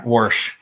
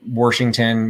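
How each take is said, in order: First: Warsh said as one syllable with an r, imitating her mother; mother's Southern pronunciation. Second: Said in the usual way. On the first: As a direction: say Warsh like a Southern mom saying Washington. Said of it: "my mother always said". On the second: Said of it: "it's Washington".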